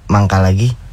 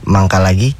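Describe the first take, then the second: First: It is said as if in stomach pain. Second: It is said in a flirty tone.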